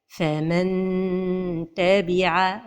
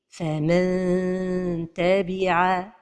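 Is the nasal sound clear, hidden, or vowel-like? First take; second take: clear; hidden. First: The tongue touches the palate, giving a clear n. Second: The tongue nears the palate, giving a hidden nasal. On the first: The speaker calls it wrong. "c'est de toucher le palais" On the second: The speaker calls it right. "la prononciation correcte"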